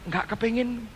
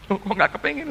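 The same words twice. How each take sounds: First: Soft, offhand mock of wife's flat no; a touch of quiet reluctance in the wife's reply; reluctant reply. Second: Rising, disbelieving "kepengin"; light mock surprise repeating "kepengin"; puzzled question. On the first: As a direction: shrug it off quietly as the wife. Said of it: "Terus dia berkata begini". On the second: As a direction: echo her words back in mild surprise. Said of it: "Saya bilang".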